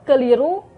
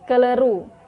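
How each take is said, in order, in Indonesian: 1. Vokal kedua diucapkan sebagai 'i'. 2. Vokal kedua diucapkan sebagai 'e'. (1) "fonem I diucapkan E" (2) "fonem I diucapkan E"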